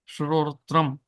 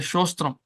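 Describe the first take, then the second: First: The word is said in its full, careful form. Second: The word is said in a simplified, easier form. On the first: The speaker calls it right. "Pronounce it because it is a tongue twister" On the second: The speaker calls it wrong. "But we won't say correctly. We'll say uh, go and say shostram. Incorrectly"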